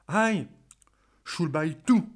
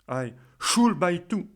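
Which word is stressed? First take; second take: I; should. First: The stress is on the word I. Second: The stress is on the word should. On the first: The other person should be the one buying. "si vous insistez sous le mot aïe" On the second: Questioning why there is any obligation to buy. "je vais insister sur le mot should"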